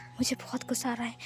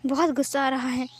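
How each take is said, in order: First: Much softer, fading words; faint angry murmur. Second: Said in the usual way. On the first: Acted. Wing, eyes closing under the locket, murmuring much softer. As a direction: let the anger sink to a faint murmur.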